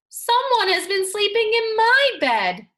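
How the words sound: It is said in a wee small voice.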